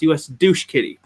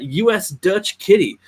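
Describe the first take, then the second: First: The middle word is said like 'douche'. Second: The middle word is said like 'Dutch'. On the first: The speaker calls it wrong. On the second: The speaker calls it right.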